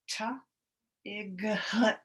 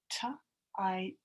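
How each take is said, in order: First: A hard g sound is heard before the t. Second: No g sound is heard before the t. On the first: The speaker calls it wrong. "We would never say ta, igut. Then you know that sounds really weird" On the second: The speaker calls it right. "We can almost pretend like the G H is not even there"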